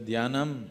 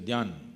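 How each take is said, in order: First: The word keeps its full final syllable. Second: The final syllable is cut off. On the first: This is the southern full form. "dhyanam as you go south" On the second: This is the Hindi-speaking clipped form. "You're cutting off everything in the end"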